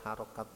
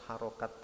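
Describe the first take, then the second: The two takes are said the same way.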